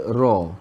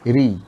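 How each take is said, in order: First: The r is followed by an open a vowel. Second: The r is followed by a high i vowel. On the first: "ra baris atas bunyi dia ra" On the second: "Ra baris bawah bunyinya ri"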